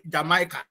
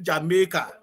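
First: "Jamaica" said as jah-MY-ka, the way outsiders say it; outsider pronunciation. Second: "Jamaica" said as jah-MAY-ka, the Caribbean way; "Jamaica" the local way, jah-MAY-ka; local pronunciation. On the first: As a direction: say "Jamaica" with the long "my" vowel in the middle. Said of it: "we don't call it Jama". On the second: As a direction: say "Jamaica" with a flat "may" in the middle. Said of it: "We call it Jamaica". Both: Shown as a demonstration.

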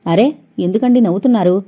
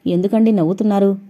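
First: Mildly serious, insistent question. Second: Mild, softened question; very gentle. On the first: Sumitra asks the boy why he laughs, seriously. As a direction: ask in earnest, slightly firm. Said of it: "అంది సీరియస్గా". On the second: Sumitra asks the still-smiling boy again, gently. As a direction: ask it gently and politely, quicker. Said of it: "చాలా సౌమ్యంగా అడిగింది". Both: A narrator's reading.

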